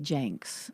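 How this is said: The vowel sounds like the 'a' in 'bank'. This is how the speaker personally says it. "I say janks"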